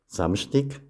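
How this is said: It is said with Sathmar Swabian dialect pronunciation. "dann anschließend im Sattmar-Schwäbischen"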